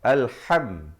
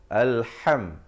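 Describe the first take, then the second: Both takes have the same delivery.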